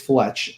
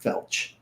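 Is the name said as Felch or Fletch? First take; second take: Fletch; Felch. First: The L comes before the E. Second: The L comes after the E. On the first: The speaker calls it right. "it's Fletch" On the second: The speaker calls it wrong. "not Felch"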